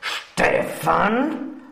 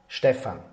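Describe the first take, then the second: First: It is said in an angry tone. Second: It is said in a neutral tone.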